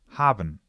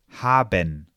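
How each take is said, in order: First: The e in the ending is swallowed. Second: The e in the ending is pronounced.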